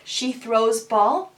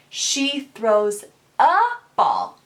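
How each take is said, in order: First: Said in the usual way. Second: Slow "She throws a ball" with the "a" clearly stressed; corrected sentence. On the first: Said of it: "If they leave out a word like". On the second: Shown as a demonstration. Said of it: "we correct them and say".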